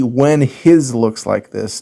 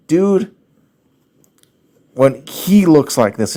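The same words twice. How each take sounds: First: Slow, "his" stressed as the wrong form; mock the typo by stressing "his"; slowly quoting the mistake "his". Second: He stressed, corrected grammar; "he" said a little louder as the right version. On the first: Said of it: "It shouldn't be". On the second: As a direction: lean on "he" to show the right form. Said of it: "it would be". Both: Shown as a demonstration.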